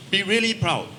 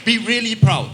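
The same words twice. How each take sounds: First: Said in the usual way. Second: Higher and louder, pushing the word "be" hard; rally the room, leaning hard on "be really proud"; emphatic urging. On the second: Real, not acted. Speaker rallying Filipino audience to be proud, loud and emphatic.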